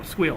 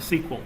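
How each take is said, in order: First: It is said with one syllable. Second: It is said with two syllables. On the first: "it's one syllable versus two" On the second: "when I told them sequel"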